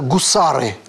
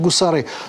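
First: The stress is on the middle syllable. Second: The stress is on the last syllable. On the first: This is the Russian way of saying the name. "У него русское имя" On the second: This is the Azerbaijani way of saying the name. "в азербайджанском языке все ударения на последний слог"

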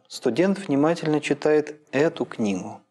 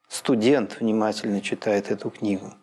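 First: The main stress falls on the word эту. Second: The main stress falls on the word студент. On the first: "когда логическое ударение начинает переползать с конца фразы" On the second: "И, наконец, на первом слоге"

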